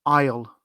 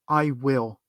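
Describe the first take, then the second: First: It is one quick contracted syllable. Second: It is two full, separate words.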